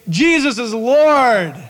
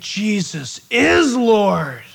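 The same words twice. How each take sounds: First: It is said calmly, without shock. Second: It is said in shock and horror.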